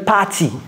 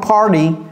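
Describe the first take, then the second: First: The T is a crisp, fully released T. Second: The T is a soft, quick flap. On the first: The speaker calls it wrong. "j'ai pas dit party" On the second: The speaker calls it right. "C'est one party"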